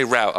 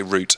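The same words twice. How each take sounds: First: "route" said to rhyme with "out"; American "route". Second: "route" said like "root"; British "route". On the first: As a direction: say "route" like "rout". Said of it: "I say route". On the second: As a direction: rhyme "route" with "boot". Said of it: "You say route". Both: Shown as a demonstration.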